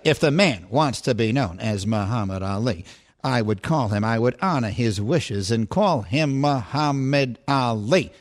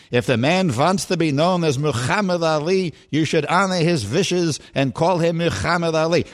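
First: Lower, slow sportscaster announcer voice; measured broadcaster cadence, low and deliberate; Howard Cosell impression. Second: Lightly put-on old barbershop man; Eddie Murphy impression. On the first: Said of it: "If I were doing Howard Cosell". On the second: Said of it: "I'm doing Eddie Murphy in Coming to America". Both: Shown as a demonstration.

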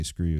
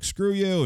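First: Said in the usual way. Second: Imitated driver snapping it out, much higher; a retold, hammed-up dismissal, pitched way up; mock angry brush-off. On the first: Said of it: "He didn't say". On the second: Driver refusing a cashless fare, high mock snap. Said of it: "He didn't say "screw you".

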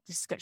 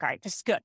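First: A hushed self-reassuring echo of "This is good"; quiet reassurance. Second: Said in the usual way. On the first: Retold or imitated. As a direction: say "This is good" again much softer, to yourself. Repeats it softly to herself. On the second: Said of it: "repeats phrase to herself".

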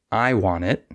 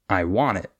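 First: "I want it" with I stressed over want. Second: "I want it" with want stressed, I light. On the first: Teacher showing wrong sentence stress, I emphasised in "I want it". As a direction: hit the word I in "I want it". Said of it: "instead of stressing the I". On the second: Teacher modelling usual sentence stress, want emphasised in "I want it". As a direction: hit the word want in "I want it". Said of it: "we would stress the want". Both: Shown as a demonstration.

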